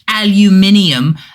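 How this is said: It is said with a British accent. The speaker calls it wrong. "Another impression of British people"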